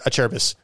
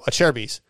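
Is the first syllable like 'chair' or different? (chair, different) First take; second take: different; chair. First: The first syllable does not sound like 'chair'. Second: The first syllable sounds like 'chair'. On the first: The speaker calls it wrong. "He'd say a Cherubis" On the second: The speaker calls it right. "Chair. Like you're sitting in a chair"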